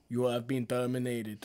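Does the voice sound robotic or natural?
robotic. It is said in a flat robotic voice.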